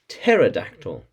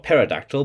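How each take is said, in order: First: The p at the start is silent. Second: The p at the start is pronounced. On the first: The speaker calls it right. "with a silent p" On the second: The speaker calls it wrong. "with a silent p, not"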